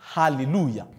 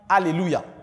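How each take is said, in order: First: The opening A is breathy and forceful. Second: The opening A is plain and flat. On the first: The speaker calls it right. "on va vous dire Alléluia" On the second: The speaker calls it wrong. "On ne va pas dire Alléluia"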